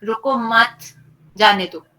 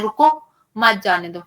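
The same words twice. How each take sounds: First: रुको मत run together, then a clear break before जाने दो; pause after मत. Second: रुको set apart, then मत जाने दो run together; pause after रुको. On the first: Teacher showing how a comma changes meaning, pause after मत. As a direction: join मत to रुको, stop, then a louder जाने दो. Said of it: "एक कॉमा से पूरी बात बदल जाती है". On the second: Teacher showing how a comma changes meaning, pause after रुको. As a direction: break right after रुको, keeping मत with जाने दो. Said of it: "वो कॉमा के चेंज से बताता जाता है". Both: Shown as a demonstration.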